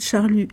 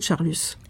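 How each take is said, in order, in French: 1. Le S final est muet. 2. Le S final est prononcé. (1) "quand Monsieur de Charlus est un guermante, on ne le prononce pas" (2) "dès l'instant où il devient l'inverti qu'il est"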